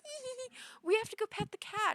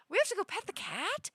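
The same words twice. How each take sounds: First: Much higher giggly voice, then louder; giddy drunk friend. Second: Much higher, disbelieving question; incredulous echo. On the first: Drunk friends running to the elevator, high giggly voice. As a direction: giggle like a tipsy friend with a silly idea. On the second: Dreamer echoing drunk friends' plan, incredulous high question. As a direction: repeat it back in disbelief. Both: Retold or imitated.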